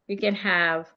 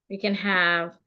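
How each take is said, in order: Both takes have the same delivery.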